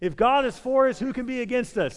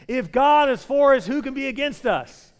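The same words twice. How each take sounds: First: It is said in a plain, calm way. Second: It is said with strong, passionate energy. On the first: "Let's say it together" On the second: "Say it again with passion"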